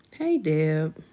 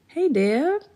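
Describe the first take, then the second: First: Said in the usual way. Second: Sing-song high greeting with a rising end; high excited hello. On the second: Real, not acted. Greeting viewer Deb in chat, high chirpy hello.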